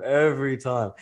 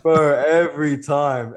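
First: Said in the usual way. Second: Laughing through the words, slow. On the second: Real, not acted. Telling the host it happens constantly, laughing through it. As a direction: laugh it out, amused.

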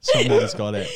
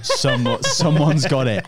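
First: Mock squeaky voice, far higher and a bit louder; squeaky echo. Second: Laughing through the words, a bit louder. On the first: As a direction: repeat it in a silly cartoon squeak. Squeaky repeat for a joke. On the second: Real, not acted. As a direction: chuckle it out, amused. Laughing reveal of footage.

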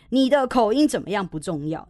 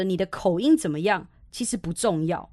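First: "口音怎么样不重要" said firmly in one run, a little raised; emphatic restatement. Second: Said in the usual way. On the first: Shown as a demonstration. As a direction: drive home "不重要" for the listeners. (强调“不重要”，一口气清楚地说) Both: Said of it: "你也听好清楚哦".

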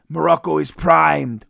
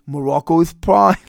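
First: Said in the usual way. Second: Lightly cartoonish, slurred manager impression; Mister Fuji. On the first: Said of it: "Fuji promises Santana has met his match". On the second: Podcaster redoing the manager's promise, mock Elmer Fudd voice. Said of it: "my Elmer Fudd, Mister Fuji".

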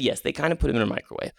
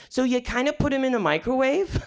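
First: Said in the usual way. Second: Put-on high-pitched puzzled kid question; little kid checking, voice lifted high and rising at the end; five-year-old child asking. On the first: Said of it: "And I said". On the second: Five-year-old checking what his uncle explained, high questioning voice. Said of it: "to a five-year-old ... he was like".

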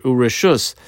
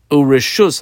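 First: Said in the usual way. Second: Urishus said louder, leaning on the word; emphasize Urishus for the class; stressed Urishus. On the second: Shown as a demonstration. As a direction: hit Urishus firmly as the key word. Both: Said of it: "I underline this word".

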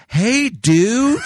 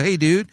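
First: Loud, high, drawn-out greeting; exaggerated slow talking. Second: Said in the usual way. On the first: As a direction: imitate talking down to someone slow. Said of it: "trying to talk to me slower". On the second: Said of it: "same old thing".

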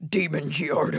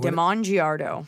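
First: "Demon" said as DEE-mun; name said as Demon. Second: "Damon" said slowly as duh-MON; name stressed on second syllable. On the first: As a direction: stress a long EE in "Demon". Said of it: "Is it Demon?". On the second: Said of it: "is it Demon?". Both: Shown as a demonstration.

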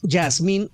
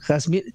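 First: Yasmín with an initial Y sound; soft-J pronunciation. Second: Jazmín with a raspy Spanish J; Spanish J pronunciation. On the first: Reading a listener's request on pronouncing the name, Yasmín with a Y sound. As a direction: say Yasmín starting with "ya". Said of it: "si les dice que se pronuncia". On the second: Host insisting on the Spanish reading, Jazmín with an h-like J. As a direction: say Jazmín starting like Javier. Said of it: "como Javier, porque ya". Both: Shown as a demonstration.

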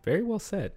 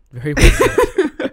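First: Said in the usual way. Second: Much higher, louder and slow, laughing through it; grand mock applause, drawn out and giggling; hammed-up praise. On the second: Repeating praise to co-host as a high, slow, laughing ham.

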